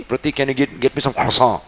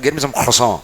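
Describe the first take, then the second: First: Put-on mild French accent, "croissant" said krwa-sõ from the throat; lightly doing the French friend's accent; a hint of a French friend asking in his accent. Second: "croissant" with a French throaty r and nasal end; mild imitation of a French speaker; a light French accent on "croissant". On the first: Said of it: "कुछ फंस गया है क्या तुम्हारे गले में". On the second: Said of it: "He said".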